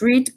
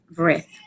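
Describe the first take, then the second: First: The vowel is a long 'ee' sound. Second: The vowel is a short 'eh' sound. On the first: It is the present tense form. "con pronunciación con la letra I" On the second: It is the past tense form. "con la letra E, como si estuviéramos diciendo el color rojo"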